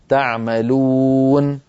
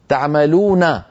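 First: The final n ends with no vowel. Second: The final n carries a short a vowel. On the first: The reader stops at this word. "إن وقفنا نقول" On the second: The reading continues without stopping. "النون مفتوحة"

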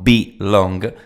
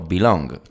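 First: It is said as two separate words. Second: It is said as one single word. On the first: It is the verb be plus the word long. The speaker calls it wrong. "no como complemento objeto, o sea, no belong" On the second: It is the single verb belong. The speaker calls it right. "Toda una palabra y no dos palabras separadas"

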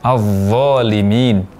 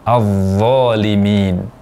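No difference in how they are said.

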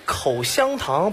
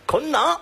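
First: All three syllables are clearly pronounced. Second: The middle syllable is swallowed into two syllables. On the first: "口香糖把香字吃掉了" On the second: "把香字吃掉了"

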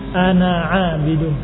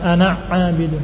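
First: Each letter is finished slowly before the next. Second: The letters are rushed and run together. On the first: The speaker calls it right. "Jangan langsung dipindahkan" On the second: The speaker calls it wrong.

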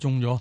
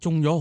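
First: The voice sounds low and dejected. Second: The voice sounds happy and upbeat. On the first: Being infected is bad news. "个声线几唔同" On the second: Winning the lottery is good news. "喂中咗好"

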